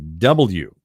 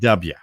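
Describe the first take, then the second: First: The letter is said in a standard accent. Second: The letter is said in a Maryland accent. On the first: The speaker calls it right. "you had to say W" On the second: The speaker calls it wrong. "not W"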